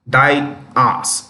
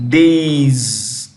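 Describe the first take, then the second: First: The word sounds like 'dee-as'. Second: The word sounds like 'days'. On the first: The speaker calls it wrong. "This is incorrect" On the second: The speaker calls it right. "How do you pronounce it? Days"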